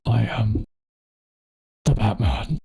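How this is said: It is said in a very deep voice.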